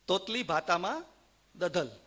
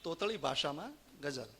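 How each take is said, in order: First: Consonants are lisped like a child's baby talk. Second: Consonants are pronounced plainly and clearly. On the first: "તોતડો બોલતો હોય એવી રીતે" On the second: "હું અનુવાદ કરતો જઈશ"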